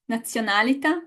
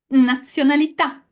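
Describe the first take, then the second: First: "nazionalità" stressed before its last syllable; wrong stress. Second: "Nazionalità" louder, stressed on the final a; final-vowel stress. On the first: Teacher checking what the class read, stress off the final vowel. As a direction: keep the final vowel of "nazionalità" light and unstressed. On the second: Teacher models the correct word for class, stress on final vowel. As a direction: drive through to a strong last syllable of "Nazionalità". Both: Shown as a demonstration. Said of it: "the correct pronunciation of these three".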